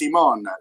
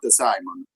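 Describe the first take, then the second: First: The name is pronounced the French way. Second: The name is pronounced a non-French way. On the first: The speaker calls it right. "the pronunciation of my name uh, it's French. It's Simon" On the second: The speaker calls it wrong. "It's not Simon"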